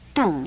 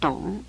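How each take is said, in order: First: The syllable has a falling fourth tone. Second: The syllable has a dipping third tone. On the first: This is the modern colloquial reading. "我们在现在口语俗念呢都把它念成动这个声音，就是说念成第四声去声的声音" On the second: This is the classical reading used for the rhyme. "它实在是在这个赏声的董韵……应该念草木震董"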